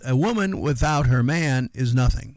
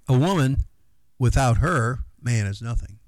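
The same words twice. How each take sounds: First: It is said with no pause after 'woman'. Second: It is said with pauses after 'woman' and 'her'.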